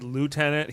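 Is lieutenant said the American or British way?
American. It is said the American way, loo-tenant.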